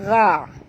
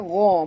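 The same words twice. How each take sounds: First: The gh sound is light and thin. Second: The gh sound is heavy and thick. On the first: The speaker calls it wrong. "Jangan baca gha" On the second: The speaker calls it right. "Ini adalah huruf tebal ya"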